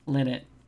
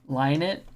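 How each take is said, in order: First: The first syllable sounds like 'lin'. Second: The first syllable sounds like 'line'.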